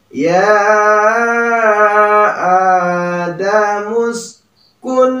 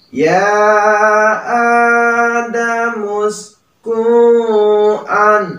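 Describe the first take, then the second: First: The n sound is pronounced clearly and distinctly. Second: The n sound is blurred, not clearly pronounced. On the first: The speaker calls it right. "Tetapi harus dibaca jelas" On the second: The speaker calls it wrong. "Jangan malah dibacanya ya adamus ku'an. Nah, salah ya. Kurang tepat"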